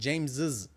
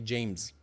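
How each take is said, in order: First: The name ends with an extra 'iz' syllable. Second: The name ends without an extra syllable. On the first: "with an extra is sound" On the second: "I didn't say James"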